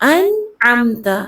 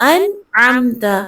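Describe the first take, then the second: No difference in how they are said.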